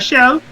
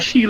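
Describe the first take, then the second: First: The vowel sounds like the one in 'bell'. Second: The vowel sounds like the one in 'pale'. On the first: "some, say pronounce it as shell" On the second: "some pronounce it as shale oil"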